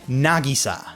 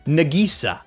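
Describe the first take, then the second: First: The name has the Japanese emphasis pattern. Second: The emphasis falls on a different, anglicized syllable. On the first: The speaker calls it right. "I hear characters pronounce a specific name" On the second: The speaker calls it wrong. "They're putting the emphasis on the incorrect syllable"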